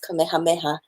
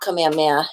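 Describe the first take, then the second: First: The h sound before the last vowel is pronounced. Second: The h sound before the last vowel is dropped. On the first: The speaker calls it right. "His name is Kamehameha. We want to get that H in there" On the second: The speaker calls it wrong. "his name is not Kamehameha"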